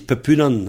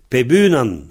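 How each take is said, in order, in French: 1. La consonne de liaison est un p sourd. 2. La consonne de liaison est un b sonore. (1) "On entend des néos qui disent pepunan" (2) "Pebunan, avec un B"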